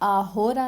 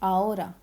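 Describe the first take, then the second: First: An h sound is heard before the o. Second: No h sound is heard before the o. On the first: The speaker calls it wrong. "आहोरा नहीं" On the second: The speaker calls it right. "आचे हमेशा सिलेंसियो, साइलेंट रहता है"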